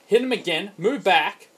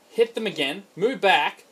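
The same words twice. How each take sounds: The two takes are said the same way.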